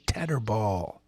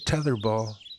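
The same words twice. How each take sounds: First: The th is not a soft th sound. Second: The th is a soft th sound. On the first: "I'm not going to say the, the soft T H sound. I'm going to say tetherball" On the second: "I wish you'd say tetherball"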